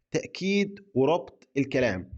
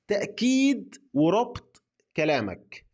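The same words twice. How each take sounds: First: Said in the usual way. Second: تأكيد stretched out slowly and pitched higher; slow emphatic. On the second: Shown as a demonstration. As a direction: lean hard and slow on تأكيد. (نطق بطيء ومؤكد على كلمة تأكيد)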